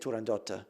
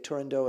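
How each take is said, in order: First: The name is said with Italian pronunciation. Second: The name is said with English pronunciation. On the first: "If I say it in Italian, I say Turandotta" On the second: "If you say it in English, I usually say Turandot"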